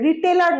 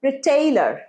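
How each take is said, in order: First: The middle vowel is a short plain 'e'. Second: The middle vowel is a gliding 'ay' sound. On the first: The speaker calls it wrong. "রিটেলার নয়" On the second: The speaker calls it right.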